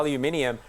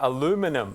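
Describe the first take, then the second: First: It is said in the British way. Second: It is said in the American way. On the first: This is how the speaker's own country says it. "we're talking about" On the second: This is how the other country's leader says it. "he's talking about a product I've never heard of called"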